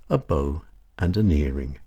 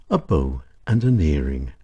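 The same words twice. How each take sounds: The two takes are said the same way.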